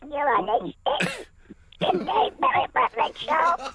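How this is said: It is said in a put-on voice.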